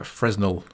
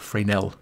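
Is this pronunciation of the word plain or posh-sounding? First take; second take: plain; posh. First: The word is given a plain, everyday pronunciation. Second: The word is given a posh, refined pronunciation.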